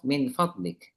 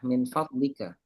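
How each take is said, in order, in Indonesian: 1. Kata berhenti pada konsonan akhir. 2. Vokal akhir diucapkan di ujung.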